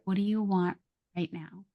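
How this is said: It is said slowly, with a softened tone. The speaker is calm and willing to help. The speaker calls it right. "Slow it down"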